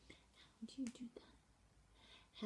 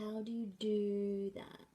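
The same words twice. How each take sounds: First: Whispered, slow, questioning; mouthed question. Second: Said in the usual way. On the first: Shown as a demonstration. Teacher mouthing question with questioning face, whispered. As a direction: breathe it silently, asking. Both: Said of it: "you see my face".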